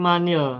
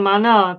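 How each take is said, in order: First: The linking vowel after the n is 'i'. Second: The linking vowel after the n is 'a'. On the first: The speaker calls it right. "tapi manil" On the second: The speaker calls it wrong. "bukan manal"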